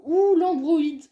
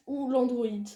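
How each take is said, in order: First: Où l'androïde drawn out slow, high and loud; puzzled loud question. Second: Said in the usual way. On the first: Real, not acted. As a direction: stretch où l'androïde in loud confusion.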